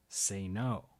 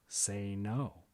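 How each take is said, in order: Both takes have the same delivery.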